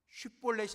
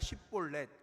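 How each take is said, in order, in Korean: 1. 첫 자음은 'sh' 소리입니다. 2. 첫 자음은 그냥 's' 소리입니다. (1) "쉿볼렛이 아니라" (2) "그렇게 말하지 못하고 십볼렛"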